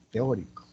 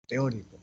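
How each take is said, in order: First: Teórico said loud, first syllable leaned on; teacher spelling out Teórico with a firm fall; stress on Teórico. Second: Said in the usual way. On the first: Shown as a demonstration. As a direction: hit the ó in Teórico. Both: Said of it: "por una palabra de brújula".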